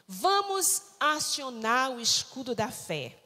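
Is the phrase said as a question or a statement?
statement. It is said as a plain statement. It announces what the group will do.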